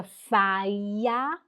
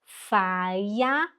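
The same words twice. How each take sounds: First: Feier said very slowly as fai-a; German pronunciation. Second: Feier said as fai-a, rising; German pronunciation. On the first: (Feier pronunciado fai-a, bem devagar) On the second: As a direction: Feier as fai-a, quick and light. (Feier falado fai-a, subindo no fim) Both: Shown as a demonstration. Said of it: "E I faz som de ai, e o E R faz som de A".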